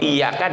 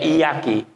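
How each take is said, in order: First: The word ends with a 'ka' sound. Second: The word ends with a 'ki' sound. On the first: The speaker calls it right. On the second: The speaker calls it wrong.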